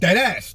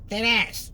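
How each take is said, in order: First: It is said forcefully, from the chest. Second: It is said weakly, without force. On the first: The speaker is completely serious. The speaker calls it right. "you say it with some shit behind your chest" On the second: The speaker sounds silly rather than serious. The speaker calls it wrong. "Not dead ass. Just goofy"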